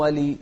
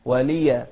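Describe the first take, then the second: First: ولي cut to a plain "-lee" ending; wrong wali. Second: ولي ending in an open "-ya"; correct waliya. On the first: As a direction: drop the final a of ولي. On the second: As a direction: voice the final a of ولي. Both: Shown as a demonstration. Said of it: "مو ولي".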